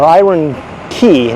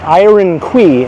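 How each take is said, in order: First: The second word sounds like 'key'. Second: The second word sounds like 'kway'. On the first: The speaker calls it right. "or Iron Key" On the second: The speaker calls it wrong. "not Quay"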